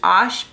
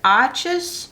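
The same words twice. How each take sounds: First: The word is pronounced the French way. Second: The word is pronounced the English way. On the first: The speaker calls it right. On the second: The speaker calls it wrong.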